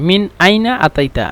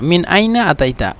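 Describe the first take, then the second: The two takes are said the same way.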